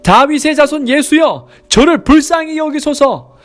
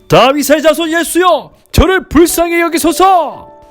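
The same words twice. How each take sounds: First: It is called out in a loud voice. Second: It is called out in an even louder voice.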